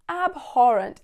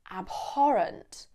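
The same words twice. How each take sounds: First: Disgusted. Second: Said in the usual way. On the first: Shown as a demonstration. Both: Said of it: "show absolute disgust".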